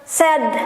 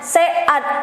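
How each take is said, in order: First: The vowels are run together quickly into one syllable. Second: The vowels are split into two separate syllables. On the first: "Jadi harus cepet" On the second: "dua suku kata jadi se-ad"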